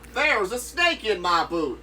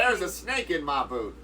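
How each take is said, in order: First: It is said with lots of energy. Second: It is said with little energy.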